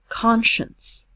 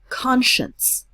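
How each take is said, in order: First: The middle letters are said with a sh sound. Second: The middle letters are said with a sh sound.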